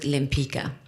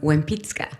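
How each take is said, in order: First: The name begins with an L sound. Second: The name begins with a W sound. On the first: This is how the family says it at home. "we pronounce it Lempica at home" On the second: This is how it is said in Poland. "the L is pronounced wa"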